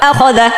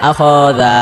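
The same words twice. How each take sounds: First: The vowels after kh and dh are kept short. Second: The vowels after kh and dh are drawn out. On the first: The speaker calls it right. "টান দেওয়া যাবে না" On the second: The speaker calls it wrong. "খয়ও টান হচ্ছে জালও টান হচ্ছে"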